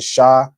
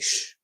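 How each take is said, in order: First: A full vowel follows the sh sound. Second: The sh sound ends with no vowel. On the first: The speaker calls it wrong. "instead of saying sha" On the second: The speaker calls it right. "you just say sh"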